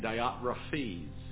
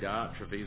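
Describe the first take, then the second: First: The name is said in the dictionary pronunciation. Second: The name is said in the speaker's everyday pronunciation. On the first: The speaker calls it right. "that's the correct pronunciation" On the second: The speaker calls it wrong. "I like to say Diotrephes"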